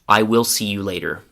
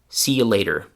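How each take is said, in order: First: The pronoun I is fully pronounced. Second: The pronoun I is left out entirely. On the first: "the classroom version again" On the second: "the version where the I is gone"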